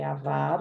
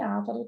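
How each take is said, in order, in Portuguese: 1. A sílaba tônica é a segunda. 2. A sílaba tônica é a primeira. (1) "a sílaba tônica é o vá" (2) "já foi ávaro também"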